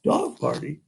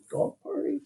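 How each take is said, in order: First: Said in the usual way. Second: "Dog party?" repeated high and soft as a question; amused echo. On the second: Shown as a demonstration. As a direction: savor the little girl's idea. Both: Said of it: "You hear that?".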